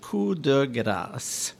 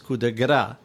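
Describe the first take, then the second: First: The last word ends with an s sound. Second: The last word ends without an s sound. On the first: A fatal, merciful blow. The speaker calls it right. "you should pronounce it coup de grâce" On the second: A blow with a piece of fat. The speaker calls it wrong. "is pronounced in the U.S. as coup de gras"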